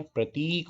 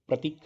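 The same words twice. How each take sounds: First: प्रतीक with a long ee in ती; long vowel. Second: प्रतीक with a short i in ती; quick short i in प्रतीक; short vowel. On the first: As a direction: stretch the ती of प्रतीक. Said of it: "प्रतीक होना चाहिए था". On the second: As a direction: clip the ती of प्रतीक. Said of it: "छोटी मात्रा लगी है". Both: Shown as a demonstration.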